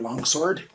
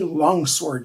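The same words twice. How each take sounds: First: The W in sword is silent. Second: The W in sword is pronounced.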